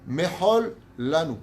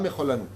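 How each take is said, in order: First: A short stop separates the two words. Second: The words run together with one L. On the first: The speaker calls it right. "Mechol, tu t'arrêtes. Lanu" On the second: The speaker calls it wrong. "ça fait un seul L"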